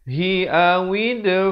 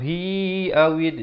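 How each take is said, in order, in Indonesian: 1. Vokal pada 'hi' tetap pendek. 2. Vokal pada 'hi' dipanjangkan.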